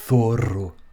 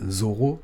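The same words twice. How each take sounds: First: It begins with a th sound. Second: It begins with a buzzing z sound. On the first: "c'est vraiment avec le f, avec la langue entre les deux lèvres" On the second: "comme on dirait en français"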